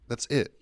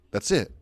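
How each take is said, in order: Both takes have the same delivery.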